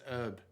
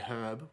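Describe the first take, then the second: First: The word begins without any H sound. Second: The word begins with an audible H sound. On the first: "some Americans I'd say it says herb" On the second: "we actually pronounce the H"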